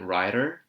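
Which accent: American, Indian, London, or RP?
American. It is said in an American accent. "And the American accent would be brilliant writer"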